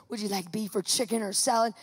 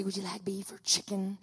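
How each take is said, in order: First: Said in the usual way. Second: Soft whispered stewardess question; whispered offer. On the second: Retold or imitated.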